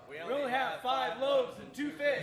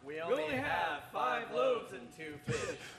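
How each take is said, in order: First: It is said loudly. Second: It is said quietly.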